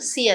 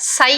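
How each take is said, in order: First: The vowel sounds like 'ih'. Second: The vowel sounds like 'eye'. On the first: The speaker calls it right. "సి అనాలి" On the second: The speaker calls it wrong. "సై అనొద్దు"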